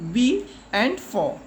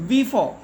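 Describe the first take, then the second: First: "be and for" as two separate parts; split into syllables. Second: Said in the usual way. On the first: Shown as a demonstration. Teacher showing children two syllables, "be and for" said in parts. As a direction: break "be and for" apart, each syllable alone. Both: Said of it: "This word also has two syllables".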